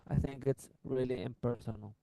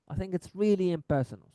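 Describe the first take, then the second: First: The word 'really' is said flat, without highlight. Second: The word 'really' is held and highlighted. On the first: The speaker calls it wrong. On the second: The speaker calls it right. "So the really بحال سكت عليها ما قلتهاش عادية"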